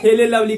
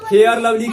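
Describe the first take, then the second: First: The first word is said with an l sound. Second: The first word is said with an r sound.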